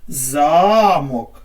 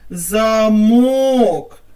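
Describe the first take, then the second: First: The stress is on the first syllable. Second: The stress is on the second syllable. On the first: "на першому складі" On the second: "поставити наголос на другий склад"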